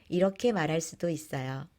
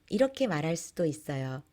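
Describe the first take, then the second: The two takes are said the same way.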